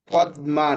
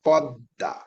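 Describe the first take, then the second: First: ম said fully in পদ্মা; পদ্মা as pod-ma, ম sounded; wrong reading. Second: পদ্মা with a doubled দ and no ম sound; correct reading. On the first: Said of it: "পদ্মা না". (ভুল উচ্চারণ, পদ্মা তে ম স্পষ্ট) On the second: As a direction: say পদ্মা as pod-da, ম silent. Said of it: "দুইটা হয়ে যাবে". (সঠিক উচ্চারণ, পদ্মা তে দ দুইবার) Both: Shown as a demonstration.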